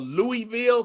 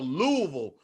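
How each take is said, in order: First: The last syllable sounds like 'vill'. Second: The last syllable sounds like 'vull'. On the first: This is how outsiders say the name. "what you would probably call Louisville" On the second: This is how locals say the name. "not even a Ville, like V U L L"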